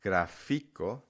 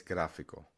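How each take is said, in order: First: "gráfico" wrongly stressed on the middle syllable, gra-FI-co. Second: "gráfico" stressed on the first syllable, GRÁ; correct stress. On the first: Teacher showing learners what to avoid, misplaced stress on FI. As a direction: push the stress late onto FI in "gráfico". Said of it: "So instead of saying". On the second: Teacher giving the Spanish for graphic, stress on first syllable. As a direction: hit the GRÁ in "gráfico", let the rest fall away. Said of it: "you actually put the stress a little earlier". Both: Shown as a demonstration.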